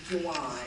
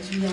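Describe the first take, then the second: First: The name is said with a J, like Joo-wahn. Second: The name is said with a hard G, like Gee-an. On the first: The speaker calls it right. "my correct pronunciation is Juwan" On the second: The speaker calls it wrong. "when you say Gian"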